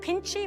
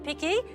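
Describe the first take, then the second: First: The word has an Italian pronunciation. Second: The word has an English pronunciation. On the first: "I'm going to try to say it the Italian way" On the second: "Or I've been calling it"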